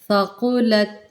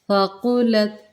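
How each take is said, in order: Both takes have the same delivery.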